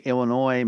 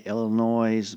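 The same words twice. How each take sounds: First: Illinois ending on oy, no z sound; Illinois with silent s. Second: Illinois ending in a z sound, ill-in-noise. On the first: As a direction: say Illinois as ill-in-oy. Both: Shown as a demonstration. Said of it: "there's no noise in Illinois".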